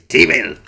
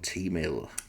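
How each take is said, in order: First: It is said in an exaggerated put-on character voice. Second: It is said in the speaker's ordinary voice. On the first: "I'm going to do it anyway" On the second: "the first time I've said that without a Danhausen voice"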